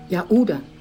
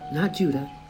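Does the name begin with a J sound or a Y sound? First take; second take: Y sound; J sound. First: The name begins with a Y sound. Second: The name begins with a J sound. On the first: The speaker calls it right. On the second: The speaker calls it wrong.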